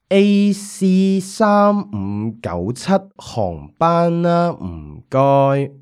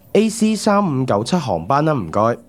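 First: It is said a bit more slowly. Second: It is said at a normal pace.

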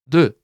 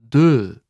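First: The word is said fast. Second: The word is said slowly.

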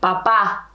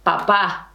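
First: The stress is on the last syllable. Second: The stress is on the last syllable.

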